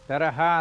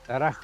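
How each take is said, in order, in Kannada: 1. ಕೊನೆಯ ಸ್ವರವನ್ನು ಪೂರ್ತಿಯಾಗಿ ಉಚ್ಚರಿಸಲಾಗುತ್ತದೆ. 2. ಕೊನೆಯ ಸ್ವರ ಬಿಡಲ್ಪಡುತ್ತದೆ. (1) "idu taraha alla" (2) "because we are reading in Hindi"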